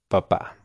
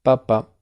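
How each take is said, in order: First: Papá with stress landing on the final á; stress on last syllable. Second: Papa, high first syllable, then falling; stress on first syllable. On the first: Teacher repeating it for student, final stress on papá. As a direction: press the second syllable of papá. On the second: Teacher repeating it for student, first-syllable stress on Papa. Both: Shown as a demonstration. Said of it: "Voy a repetirlo dos veces".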